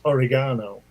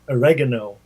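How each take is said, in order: First: It is said with a British pronunciation. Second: It is said with an American pronunciation. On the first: The speaker calls it right. "and it's oregano" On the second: The speaker calls it wrong. "you Americans say oregano"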